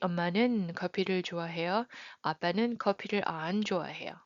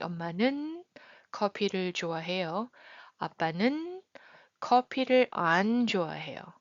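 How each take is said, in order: First: The contrast is said lightly and casually. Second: The contrast is exaggerated with strong emphasis. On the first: The contrast is only mildly marked. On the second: The contrast between the two people is highlighted. "sometimes you want to exaggerate, like clear, uh, contrasting, highlighting the contrasting"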